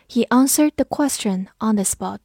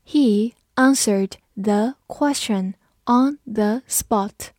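First: Said in the usual way. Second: Slow, word-by-word model reading; slow read-along. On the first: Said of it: "慢读一遍". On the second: Shown as a demonstration. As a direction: read it slowly with gaps between words for learners. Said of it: "跟着我慢读一遍". (慢速逐词跟读)

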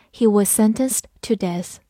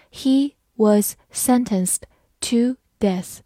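First: Said in the usual way. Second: Slow, careful read-through. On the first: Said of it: "慢慢来读". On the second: Shown as a demonstration. Teacher reads the sentence slowly for learners, slow. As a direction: say it slowly word by word. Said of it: "好，慢慢来读".

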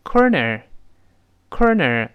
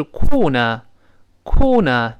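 First: American "corner" with both r's curled; slow American "corner", r in each syllable; American pronunciation. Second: British "corner" without r, slow; British pronunciation. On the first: Teacher contrasting it with British for students, American pronunciation. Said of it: "而美式发音呢，跟这个类似". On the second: Teacher recalling a word from book three, British pronunciation. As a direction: model British "corner" as kaw-nuh. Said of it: "英式发音是corner". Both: Shown as a demonstration.

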